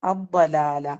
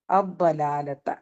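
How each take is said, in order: First: Said in the usual way. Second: അബ്ബലാലത്ത drawn out slowly, each syllable of the Arabic clear; slow Quranic pronunciation of അബ്ബലാലത്ത; slow careful recitation. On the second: Shown as a demonstration. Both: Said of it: "ഇനി അഥവാ pronounce ചെയ്താൽ".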